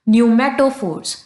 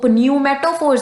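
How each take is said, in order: First: The initial P sound is silent. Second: The initial P sound is pronounced. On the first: The speaker calls it right. "पी is silent" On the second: The speaker calls it wrong. "इसको न्यूमेटोफोर्स नहीं बोलेंगे"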